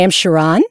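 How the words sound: The pitch rises at the end. The speaker is asking to be accepted. "it was an up inflection"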